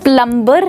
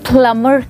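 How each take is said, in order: First: A b sound is heard after the m. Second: No b sound is heard after the m. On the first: The speaker calls it wrong. "प्लम्बर नहीं" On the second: The speaker calls it right. "बी की जो sound है वो है silent"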